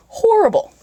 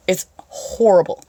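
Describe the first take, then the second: First: High hammed-up disgusted wail; exaggerated disgust. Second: Said in the usual way. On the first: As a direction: squeal it in mock disgust. Exaggerated repeat of horrible.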